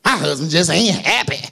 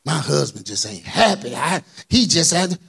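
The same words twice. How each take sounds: First: Low, mopey mock complaint; lightly voiced grumbling wife; sulky complaint. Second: Mock sulky complaining wife; a light imitation of a grumbling wife; whiny wife. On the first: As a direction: moan it like a fed-up wife. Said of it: "Why you talk like that?". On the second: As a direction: sulk it out like a tired wife. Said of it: "listen to even the way you saying it".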